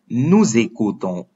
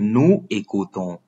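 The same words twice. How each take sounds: First: A z sound links nous to écoutons. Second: Nous and écoutons are said without linking. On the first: The speaker calls it right. "we pronounce it as nous écoutons" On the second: The speaker calls it wrong. "instead of saying nous écoutons"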